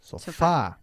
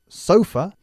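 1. El acento está en la segunda sílaba. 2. El acento está en la primera sílaba. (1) "vosotros sofá" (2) "nosotros acentuamos la primera sílaba"

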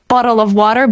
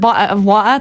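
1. Dźwięki t są wymawiane wyraźnie. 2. Dźwięki t są pominięte w obu słowach.

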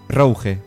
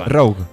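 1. La palabra se pronuncia como en francés. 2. La palabra se pronuncia como en inglés. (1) "En francés, Rouge" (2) "en inglés creo que es Rogue"

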